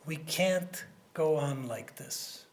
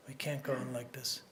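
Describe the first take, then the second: First: Slow, deliberate, each word weighed; slow grave quote. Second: Softer, lower echo of the line; quiet repeat. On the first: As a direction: lay it down slowly for the cabinet. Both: Retold or imitated. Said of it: "he turned to his cabinet and he said".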